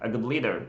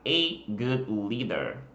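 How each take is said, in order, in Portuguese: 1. A frase é dita rápido, as palavras se juntam. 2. A frase é dita devagar, cada palavra enfatizada. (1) "quando a gente fala rápido" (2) "Se você fala devagar, enfatizando as palavras"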